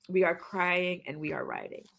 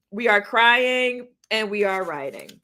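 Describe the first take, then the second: First: Softer, lower echo of the line; quiet repeat. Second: Said in the usual way. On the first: Retold or imitated. Host echoing a viewer's comment, quietly. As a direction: let it drop to a quiet, reflective repeat.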